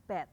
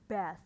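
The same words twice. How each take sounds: First: "bed" ending in a hard stop; "bed" as a stopped "bet"; wrong "bath". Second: "bath" with a breath of th, not t; correct "bath". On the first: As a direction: say "bed" with no th, cut off short. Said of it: "bukan bed". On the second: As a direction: say "bath" with the tongue between the teeth at the end. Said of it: "ini bath". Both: Shown as a demonstration.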